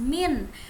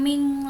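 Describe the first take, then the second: First: The n is pronounced clearly without a nasal hum. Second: The n is pronounced with a prolonged nasal hum. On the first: The speaker calls it right. "Nun sukunnya dibaca jelas" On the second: The speaker calls it wrong. "bukan ming lagi"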